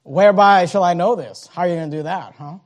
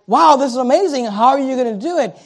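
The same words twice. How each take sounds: First: Skeptical, doubting challenge; a hint of scoffing doubt; critical doubt. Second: Curious wonder. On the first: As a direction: question it with suspicion. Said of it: "He's speaking critically". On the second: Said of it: "not speaking out of curiosity, like". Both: Shown as a demonstration.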